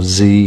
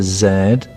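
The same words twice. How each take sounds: First: The letter is said the American way, "zee". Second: The letter is said the British way, "zed".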